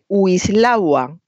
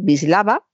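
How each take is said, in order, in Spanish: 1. El nombre empieza con un sonido W. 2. El nombre empieza con un sonido B. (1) "se empeña mucha gente en decir Wislawa" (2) "también la pronunciamos con B, así que hay que decir Wisława"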